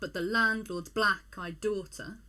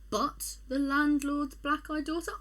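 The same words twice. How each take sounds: First: The stress is on land in landlord. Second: The stress is on lord in landlord.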